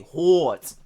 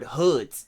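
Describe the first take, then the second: First: The word sounds like 'hordes', with an r-colored vowel. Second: The word sounds like plain 'hoods'. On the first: This is how people from one neighborhood say it. "They say hordes" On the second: This is the ordinary way of saying the word. "they don't say it like the regular word hoods"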